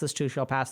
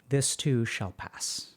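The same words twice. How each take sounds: First: The phrase is said very fast. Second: The phrase is said slowly.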